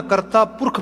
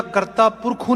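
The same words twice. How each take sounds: First: ਕਰਤਾ ਪੁਰਖ closing on kh, no final u; correct silent vowel. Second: ਕਰਤਾ ਪੁਰਖੂ with a sounded final u; wrong literal reading. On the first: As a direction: end ਕਰਤਾ ਪੁਰਖ on a bare "kh". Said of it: "ਪੜ੍ਹਨਾ". (ਕਰਤਾ ਪੁਰਖ ਨੂੰ 'ਖ' 'ਤੇ ਮੁਕਾਓ, ਔਂਕੜ ਨਾ ਬੋਲੋ) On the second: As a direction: end ਕਰਤਾ ਪੁਰਖੂ on "khoo". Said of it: "ਨਹੀਂ ਪੜ੍ਹਨਾ". (ਕਰਤਾ ਪੁਰਖੂ ਦੇ ਖੱਖੇ ਦਾ ਔਂਕੜ 'ਊ' ਕਰਕੇ ਬੋਲੋ) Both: Shown as a demonstration.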